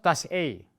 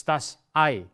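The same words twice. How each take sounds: First: Das Ei with "Ei" said like "ay"; wrong pronunciation. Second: Das Ei with "Ei" said like "eye"; right pronunciation. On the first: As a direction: das Ei mispronounced as "day" vowel. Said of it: "It's not das Ei". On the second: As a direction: das Ei, the correct "eye" sound. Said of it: "it's das Ei". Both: Shown as a demonstration.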